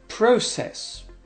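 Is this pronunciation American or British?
British. It is said with a British pronunciation.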